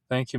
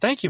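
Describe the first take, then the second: First: It is said in a flat way. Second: It is said in an excited way.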